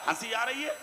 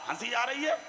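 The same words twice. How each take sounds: The two takes are said the same way.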